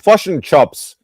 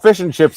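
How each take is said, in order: First: It is said in a New Zealand accent. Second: It is said in a neutral accent.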